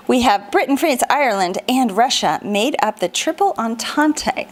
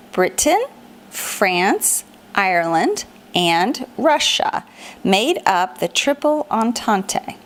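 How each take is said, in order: First: Said in the usual way. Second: Each name lifted at the end, with a pause after it, Russia slowed down; paused rising list. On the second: Shown as a demonstration. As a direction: drill the list one name at a time, each ending on a rise. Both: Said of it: "So let's try that again".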